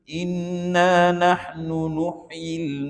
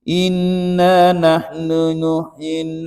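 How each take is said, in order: First: The u vowels are said with rounded lips. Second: The u vowels are said without lip rounding. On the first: The speaker calls it right. "Oh begitu baru betul" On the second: The speaker calls it wrong. "kalau tuan baca begini tak muncung"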